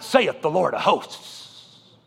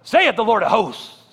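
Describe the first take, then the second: First: "saith" drawn out slowly with a spat S. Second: "Saith" hit hard, hissing and spitting the S. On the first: Retold or imitated. Quoting old preachers, "saith" slow and heavy. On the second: Shown as a demonstration. Showing the congregation how it was preached, S spat out. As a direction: spit out the S in "Saith". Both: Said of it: "you emphasize the S and spit".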